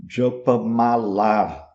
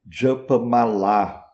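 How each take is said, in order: Both takes have the same delivery.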